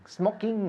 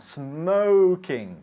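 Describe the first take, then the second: First: The first vowel is a short o sound. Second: The first vowel is a long oh sound. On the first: The speaker calls it wrong. "Smocking, no" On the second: The speaker calls it right. "Smoking, not smocking"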